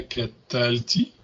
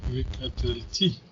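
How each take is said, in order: First: Catalti with the stress on the syllable before last, ta; wrong stress. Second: V Catalti with the final ti stressed; V Catalti, lean on the last syllable ti. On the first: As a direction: Catalti stressed early, not on the final ti. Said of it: "On dirait pas Catalti". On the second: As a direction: say V Catalti with the accent moved to the end. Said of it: "On a l'accent sur la dernière syllabe". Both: Shown as a demonstration.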